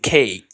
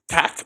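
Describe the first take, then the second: First: The vowel is said long, like its letter name. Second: The vowel is said short and clipped. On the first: The speaker calls it right. "ou dit cake" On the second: The speaker calls it wrong. "Ou pas dit cac"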